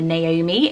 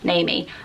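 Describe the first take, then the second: First: The O sound is clearly pronounced separately. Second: The O sound is blended into the name. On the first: The speaker calls it right. "the Naomi and pronouncing the O" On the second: The speaker calls it wrong. "sort of blend it and go Naomi"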